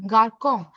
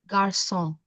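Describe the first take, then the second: First: The c is said with a k sound. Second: The c is said with an s sound. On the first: The speaker calls it wrong. "normal garcon" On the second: The speaker calls it right. "when I add the accent below this, the word becomes garçon"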